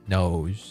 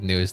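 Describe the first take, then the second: First: The vowel sounds like the word 'nose'. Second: The vowel sounds like the word 'news'. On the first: "I think no nose sounds uh cooler" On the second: "It is funny to pronounce it news though"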